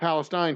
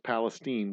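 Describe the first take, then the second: First: The name is said the usual, non-Texan way. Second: The name is said the local Texan way. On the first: The speaker calls it wrong. "not Palestine, Texas, mind you" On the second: The speaker calls it right. "It's Palestine. We pronounce it that way. That's how we are. We're Texans"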